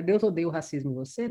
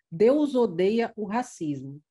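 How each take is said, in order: First: Said in the usual way. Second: "Deus odeia o racismo," stretched slowly with a pause after racismo; drawn out, then stop at the comma. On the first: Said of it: "Não, ele deve odiar o racismo". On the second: Shown as a demonstration. Teacher reading slowly to show where the comma falls. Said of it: "vírgula".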